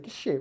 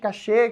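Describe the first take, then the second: First: It is said in one short syllable. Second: It is said in two syllables, stress last. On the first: The speaker calls it right. "A pronúncia correta vem do francês" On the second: The speaker calls it wrong. "todo mundo fica falando"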